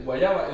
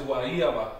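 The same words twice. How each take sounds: First: "guayaba" with a consonant Y, gwa-YA-ba; modern Y pronunciation. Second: "guayaba" with the Y as ee, gwa-EE-a-ba. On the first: Teacher giving the form to replace, modern Y pronunciation. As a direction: say "guayaba" the everyday Spanish way. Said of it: "so instead of". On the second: Teacher correcting the word, old E sound for Y. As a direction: break "guayaba" open with a stressed EE. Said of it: "the Y was pronounced E". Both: Shown as a demonstration.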